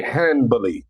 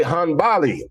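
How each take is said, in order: First: "Hanbali" as HAN-buh-lee, flat first A; up-north pronunciation. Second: "Hanbali" as hun-BAH-lee, drawn out and higher; own southern pronunciation. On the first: Retold or imitated. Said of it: "That's how they talk up north". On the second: Shown as a demonstration. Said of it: "I don't talk like that".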